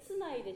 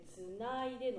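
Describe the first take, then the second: First: The pitch does not rise on na. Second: The pitch rises on na. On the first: The speaker calls it wrong. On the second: The speaker calls it right.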